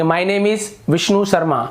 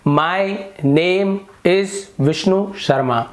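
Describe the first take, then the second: First: The words run together smoothly without pauses. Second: Each word is said separately with pauses between. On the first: "फिर आप जोड़ के बोलेंगे" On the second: "इसे तोड़ तोड़ कर पढ़ना है"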